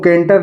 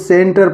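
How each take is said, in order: First: The word begins with a k sound. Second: The word begins with an s sound. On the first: The speaker calls it wrong. "इसको केंटर नहीं पढ़ेंगे" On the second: The speaker calls it right. "इसको सेंटर पढ़ेंगे"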